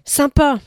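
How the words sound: It is said with lively, eager energy. The speaker is genuinely keen. "Quand il arrive avec son point d'exclamation. Il y a de l'élan"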